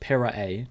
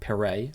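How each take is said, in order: First: The name is said with three syllables. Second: The name is said with two syllables. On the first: The speaker calls it right. "it's three syllables. Pirae" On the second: The speaker calls it wrong. "not Pirae, like I was saying"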